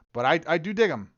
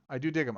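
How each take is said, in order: First: Louder, higher push on "dig"; emphatic dig. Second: Said in the usual way. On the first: Real, not acted. Streamer to chat, leaning hard on "dig". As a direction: land "dig" hard with a falling tune. Repeating his verdict on the card.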